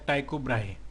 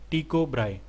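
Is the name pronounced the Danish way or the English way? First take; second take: English; Danish. First: The name is said with an English pronunciation. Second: The name is said with a Danish pronunciation.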